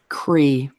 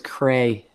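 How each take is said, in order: First: The name ends with an 'ee' vowel. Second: The name ends with an 'ay' vowel. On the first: The speaker calls it right. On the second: The speaker calls it wrong. "everybody says Cray if they see that"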